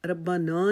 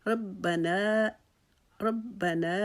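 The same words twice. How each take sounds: First: ربنا with a long, dull final vowel; wrong reading. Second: ربنا slow, with a short, clear final نا; correct recitation. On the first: Teacher showing the mistaken ربنا. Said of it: "ربنا نہیں پڑھیں گے". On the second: Teacher reciting the correct ربنا. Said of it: "اس کو ہم پڑھنا ہے". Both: Shown as a demonstration.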